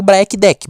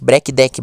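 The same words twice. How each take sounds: First: Black Deck said as "BRA-ki DEH-ki"; Black Deck, slow and higher, as "braki deki"; unsure pronunciation. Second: Black Deck said as "BREH-ki DEH-ki"; Black Deck, lower, as "breki deki"; alternative pronunciation. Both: Shown as a demonstration. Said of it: "sei lá muito bem como fala".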